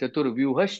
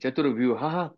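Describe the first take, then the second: First: The word ends with an sh sound. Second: The word ends with an h sound. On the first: The speaker calls it right. "सोपं जाईल ते" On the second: The speaker calls it wrong. "चतुर्व्यूह हा असं म्हणण्यापेक्षा"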